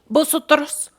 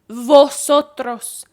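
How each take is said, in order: First: The first sound is a b sound. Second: The first sound is a v sound. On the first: "in Republic of Dominicana, V S B" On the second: "vi was v"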